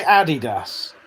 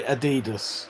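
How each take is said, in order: First: ADI-das, stress up front; Adidas with the first syllable stressed; British Adidas. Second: A-DEE-dus, stress in the middle; Adidas with a long stressed DEE; weirdos' Adidas. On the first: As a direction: say Adidas as AD-ee-dass. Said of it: "I say Adidas". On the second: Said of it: "but weirdos say Adidas". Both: Shown as a demonstration.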